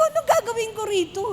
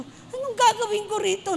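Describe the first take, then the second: First: Higher, half-laughing fake sob; playful fake crying over the wrong shoes; mock crying. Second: Lightly raised, exasperated question; a hint of helpless dismay; retold dismay. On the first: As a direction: whine it like a mock lament. Repeats same question, half-crying laugh. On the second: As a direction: ask your child what to do with this. Retold asking child, wrong shoe size.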